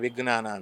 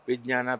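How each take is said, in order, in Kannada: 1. "jna" ಸಂಯುಕ್ತಾಕ್ಷರವನ್ನು ಸಡಿಲವಾಗಿ, ಸಾಮಾನ್ಯ ರೀತಿಯಲ್ಲಿ ಹೇಳಲಾಗುತ್ತದೆ. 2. "jna" ಸಂಯುಕ್ತಾಕ್ಷರವನ್ನು ಜಾಗರೂಕತೆಯಿಂದ ಮತ್ತು ಸ್ಪಷ್ಟವಾಗಿ ಹೇಳಲಾಗುತ್ತದೆ. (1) "ಬೆಂಗಳೂರಲ್ಲಿ ವಿಜ್ಞಾನಕ್ಕೆ ವಿಜ್ಞಾನ ಅಂತಾರೆ" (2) "ಆ ಥರ ತಪ್ಪು ತಪ್ಪು ಉಚ್ಚಾರ ಯಾವತ್ತೂ ಅಪರ್ಣ ಮಾಡಿಲ್ಲ"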